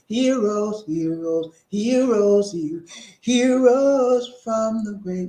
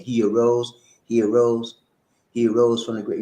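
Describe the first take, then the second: First: High, drawn-out gospel singing; sung hymn. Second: Said in the usual way. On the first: Shown as a demonstration. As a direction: sing it out like an old church hymn. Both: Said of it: "Remember that song?".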